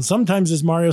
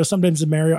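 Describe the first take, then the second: First: Mario with "ah", MAH-rio; open-vowel Mario. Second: Mario with "mare", MARE-io; flat-vowel Mario. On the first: Host showing the actor wavering, open-vowel Mario. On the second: Host showing the actor wavering, Mario as MARE-io. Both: Shown as a demonstration. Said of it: "he kind of wavers around".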